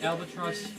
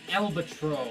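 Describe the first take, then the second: First: The word ends with a final s sound. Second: The word ends without a final s sound. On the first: The speaker calls it wrong. "I used to pronounce it albatross" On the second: The speaker calls it right. "that's how you pronounce it, and I refuse to pronounce it any other way"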